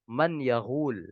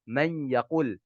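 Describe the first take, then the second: First: The middle consonant is a gh sound. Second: The middle consonant is a q sound. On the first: The speaker calls it wrong. "tetapi mengucapkannya salah" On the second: The speaker calls it right. "Harusnya man yaqul"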